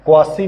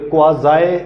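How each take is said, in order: First: It is said with an s and ending 'see'. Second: It is said with a z and ending 'zye'. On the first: The speaker calls it wrong. "क्वासी नहीं इसको बोलना" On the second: The speaker calls it right. "क्वाज़ाई इसको बोला जाता है"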